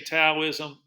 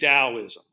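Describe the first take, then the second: First: The word begins with a T sound. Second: The word begins with a D sound. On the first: "if you say Taoism, not a problem" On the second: "It could also be spelled with a D. So we like to say Taoism"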